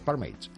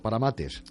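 First: It is pronounced with English sounds. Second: It is pronounced with Spanish sounds. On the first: It sounds polished and pretentious. The speaker calls it right. "Se pronuncia en inglés" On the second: It sounds plain and unpretentious. The speaker calls it wrong. "¿para qué lo dices mal?"

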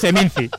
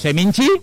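First: It is pronounced with a plain Spanish pronunciation. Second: It is pronounced with an Italian-sounding pronunciation. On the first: It treats the name as the Valladolid festival. The speaker calls it right. "Se dice Seminci" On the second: It treats the name as a foreign Venetian festival. The speaker calls it wrong. "Como si fuera un festival de cine de Venecia"

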